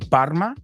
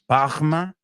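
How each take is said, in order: First: The R is a plain English-style R. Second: The R is a throaty, French-like R.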